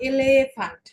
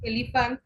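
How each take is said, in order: First: "এলিফ্যান্ট" as eh-LEH-fahnt, middle E stretched to "eh"; German pronunciation. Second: "এলিফ্যান্ট" with a short "i" in the middle, English way; English pronunciation. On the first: Teacher contrasting German with English, German pronunciation. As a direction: hit a long "eh" in "এলিফ্যান্ট", German way. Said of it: "আর আমরা ডয়েসে বলবো". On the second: Teacher contrasting English with German, English pronunciation. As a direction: say "এলিফ্যান্ট" as EL-i-fant. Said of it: "আমরা ইংলিশে বলি". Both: Shown as a demonstration.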